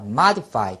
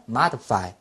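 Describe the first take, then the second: First: Modify with a short "i" in the middle, MA-di-fai; pronunciation variant. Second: Modify with a schwa in the middle, MA-duh-fai; pronunciation variant. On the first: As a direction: say modify as "MAH-dih-fai". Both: Shown as a demonstration. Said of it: "두 가지 발음".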